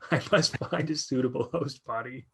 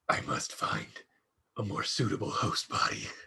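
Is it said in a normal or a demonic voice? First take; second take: normal; demonic. First: It is said in a normal voice. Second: It is said in a demonic voice.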